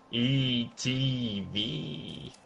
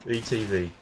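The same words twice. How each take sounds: First: Very slow, soft spelling out; each letter of "E T V" held long; drawn-out letters. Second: Said in the usual way. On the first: Pretend. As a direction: stretch "E T V" letter by letter. Playing on the initials E T.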